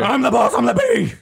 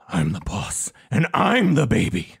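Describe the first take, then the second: First: It is said quickly without pausing. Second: It is said slowly with a pause.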